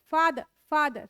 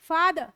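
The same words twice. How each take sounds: First: "father, father" with a soft f; soft f sound. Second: "father" with an aspirated ph; wrong ph sound. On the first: Teacher showing the right f sound. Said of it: "फ है, फ". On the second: Teacher showing the wrong sound for F. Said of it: "father नहीं है". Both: Shown as a demonstration.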